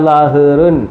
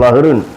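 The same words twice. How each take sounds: First: The word is read slowly, broken into parts. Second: The word is read quickly as one unit. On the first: The speaker calls it wrong. "അല്ല ലഹ്റുൻ അങ്ങനല്ല. അതൊക്കെ കൊച്ചു പിള്ളേർ വായിക്കുന്ന ഒരു ശീലങ്ങൾ" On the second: The speaker calls it right. "കൂട്ടക്ഷരത്തിൽ വരുമ്പം സ്പീഡ് വായിക്കണം"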